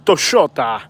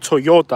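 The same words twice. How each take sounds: First: It is said with an Argentinian accent. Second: It is said without an Argentinian accent. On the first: "they say" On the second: "So they don't say"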